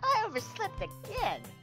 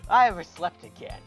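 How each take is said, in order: First: It is said in a put-on character voice. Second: It is said in the speaker's natural voice.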